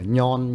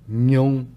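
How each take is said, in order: First: The syllable ends in a plain 'on' sound. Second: The syllable ends in a rounded 'ong' sound. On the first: The speaker calls it wrong. "nhông chứ mà nhon nha" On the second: The speaker calls it right. "nhông chứ mà nhon nha"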